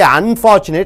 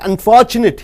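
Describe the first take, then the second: First: The word begins with a full 'un' sound. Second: The word begins with just an 'n' sound. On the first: The speaker calls it wrong. "you don't say unfortunate" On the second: The speaker calls it right. "You start with n"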